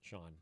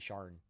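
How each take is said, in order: First: The name is said without an R sound. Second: The name is said with an R sound. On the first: "I know it's pronounced Sean" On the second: "It will always be Sharn from now on"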